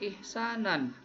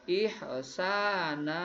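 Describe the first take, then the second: First: The word ends with an n sound. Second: The word ends on a long a vowel. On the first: The speaker calls it wrong. "dibacanya jangan ihsanan" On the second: The speaker calls it right. "tapi ihsana"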